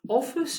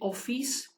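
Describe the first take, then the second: First: The final vowel is short, English-style. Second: The final vowel is drawn out long. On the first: This is the English pronunciation. "Office in English" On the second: This is the Kurdish pronunciation. "in Kurdish, we say office. We some sort of elongate the E sound"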